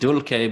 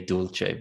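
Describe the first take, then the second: First: Dulce is said with classical Latin pronunciation. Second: Dulce is said with medieval Latin pronunciation. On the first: "I use the classical Latin pronunciation" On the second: "if you're a medieval Latin speaker"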